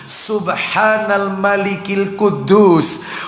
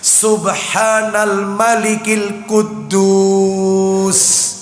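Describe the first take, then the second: First: It is said low, with a short ending. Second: It is raised, with a drawn-out last word. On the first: "yang kedua rendah" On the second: "agak ditinggikan dan memanjangkan kata akhirnya"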